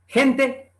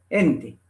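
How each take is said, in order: First: Said in the usual way. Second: ENTE begun with a soft H for the G; soft aspirated G. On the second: Shown as a demonstration. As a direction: breathe the first sound of "gente" like an H. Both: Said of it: "se pronuncia con una aspiración suave".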